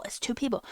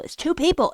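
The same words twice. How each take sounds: First: Said in the usual way. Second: Louder, higher exasperated insistence; loud exasperated repeat. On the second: Real, not acted. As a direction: hammer the point home, raised voice. Ranting, repeating point loudly.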